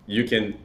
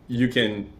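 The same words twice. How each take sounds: The two takes are said the same way.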